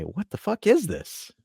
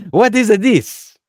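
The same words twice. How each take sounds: First: Put-on higher, slow exasperated question in an American accent. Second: Put-on loud, high, drawn-out Italian accent; hammed-up Italian-accented outburst. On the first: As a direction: ask it slowly in your own American accent. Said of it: "use your American accent". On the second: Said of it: "throw in the Italian accent".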